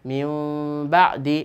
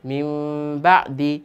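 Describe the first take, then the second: Both takes have the same delivery.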